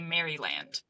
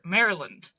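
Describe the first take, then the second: First: The word is said just as it is spelled. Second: The word is said differently from its spelling. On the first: The speaker calls it wrong. "As a Canadian, I would say Maryland because that is how it is spelled" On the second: The speaker calls it right. "but it's pronounced. Let's see if I get this right"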